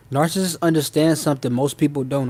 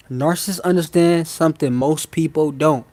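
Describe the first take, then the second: First: Said in the usual way. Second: Said real slow. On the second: Shown as a demonstration. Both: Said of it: "I'ma say this real slow".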